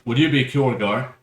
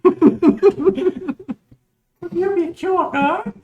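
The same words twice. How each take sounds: First: It is said in the speaker's normal voice. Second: It is said in a put-on feminine voice.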